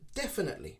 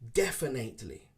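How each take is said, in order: First: The vowel after the N sounds like 'it'. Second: The vowel after the N sounds like 'ate'. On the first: The speaker calls it right. "it's more an I sound" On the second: The speaker calls it wrong. "Many people pronounce it definitely"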